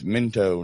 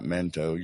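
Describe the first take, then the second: First: The first vowel sounds like 'i' in 'pin'. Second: The first vowel sounds like 'e' in 'pen'. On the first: The speaker calls it right. "it's Minto" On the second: The speaker calls it wrong. "not Mento. You're saying Mento"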